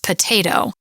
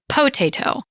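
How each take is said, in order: First: The stress is on the second syllable. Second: The stress is on the first syllable. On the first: The speaker calls it right. "that O gets reduced, and it's really more of an uh or a schwa almost" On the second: The speaker calls it wrong. "if it were, we would say potato"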